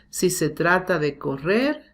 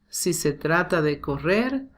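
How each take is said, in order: No difference in how they are said.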